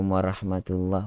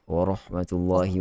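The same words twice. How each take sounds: First: The r sound is thin, without heaviness. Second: The r sound is thick and heavy. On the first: This is the everyday local way of greeting. The speaker calls it wrong. "Orang Melayu bagi salam" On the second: This is the proper Arabic way. The speaker calls it right.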